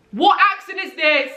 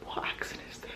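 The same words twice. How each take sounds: First: High, incredulous exclamation; baffled outburst. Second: Very soft, bewildered whisper; whispered aside. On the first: Breaking off the poem over the failed accent, high exclaimed bafflement. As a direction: blurt it out in disbelief at yourself. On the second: Questioning own failed accent mid-poem, whispered aside. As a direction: whisper it to yourself. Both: Real, not acted.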